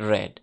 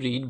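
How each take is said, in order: First: The vowel is short, like 'red'. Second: The vowel is long, like 'reed'. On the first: It is the past form of the verb. The speaker calls it right. "বানান এক কিন্তু উচ্চারণ হবে রেড" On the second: It is the present form of the verb. The speaker calls it wrong. "এখন কিন্তু রিড বলা যাবে না"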